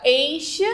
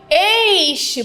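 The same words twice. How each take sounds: First: Said in the usual way. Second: "este" with a long, high es-; stretched stressed syllable. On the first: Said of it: "retirar a palavra este". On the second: Shown as a demonstration. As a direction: draw out the first syllable of "este". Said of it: "É aquela que eu passo mais tempo pronunciando".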